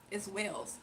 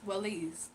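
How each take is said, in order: First: Wales said as the country, waylz. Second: Walees said as two syllables, weh-lees. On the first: Streamer trying out the name, saying Wales. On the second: Streamer guessing the name aloud, saying Walees. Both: Shown as a demonstration. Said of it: "So it's not like Wale".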